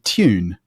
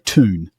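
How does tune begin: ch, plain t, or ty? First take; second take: ty; plain t. First: It starts with a t followed by a y glide. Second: It starts with a plain t, no y glide. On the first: "A sort of posher English accent might be tune, ... literally a T, ... T Y" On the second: "what Americans would probably say"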